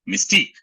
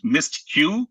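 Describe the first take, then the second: First: It is said as one word, mystique. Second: It is said as two parts, mist and Q. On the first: The speaker calls it right. "It's actually... It's mystique" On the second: The speaker calls it wrong. "I sort of hate the mispronunciation as uh, mist, mist Q"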